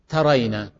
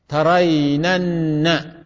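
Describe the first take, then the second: First: Said in the usual way. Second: Drawn-out "ترينن" with a held double n at the end; emphatic nun added. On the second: Shown as a demonstration. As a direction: stretch "ترينن" very slowly into ta-ray-nan-na. (نطق «ترينن» ببطء شديد مع تشديد النون الأخيرة) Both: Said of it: "أكد".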